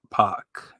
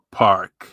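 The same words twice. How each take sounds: First: Park said as "pahk", no R; New Bedford R-drop. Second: Said in the usual way. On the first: Shown as a demonstration. Showing his local accent, park said "pahk". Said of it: "That New Bedford accent". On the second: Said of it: "We don't know how to pronounce our R's".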